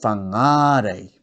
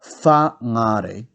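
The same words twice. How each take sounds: First: "whangare" with a long, strong middle NGĀ; stress on ngā. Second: "whangare" with WHA punched and ngare lighter; stress on first syllable. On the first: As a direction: stretch and stress the second syllable of "whangare". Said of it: "put the emphasis on ngā". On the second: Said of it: "So instead of". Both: Shown as a demonstration.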